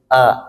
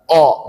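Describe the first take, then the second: First: The vowel is an open a sound. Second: The vowel is a rounded o sound. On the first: The speaker calls it right. "Harus terbuka huruf alifnya itu jelas" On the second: The speaker calls it wrong. "nggak boleh o"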